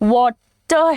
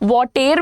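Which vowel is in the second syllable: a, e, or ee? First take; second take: a; e. First: The second syllable has a light a vowel. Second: The second syllable has an e vowel. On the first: The speaker calls it right. "वॉटर है" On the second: The speaker calls it wrong. "वॉटेर भी नहीं है"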